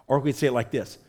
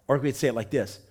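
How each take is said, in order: Both takes have the same delivery.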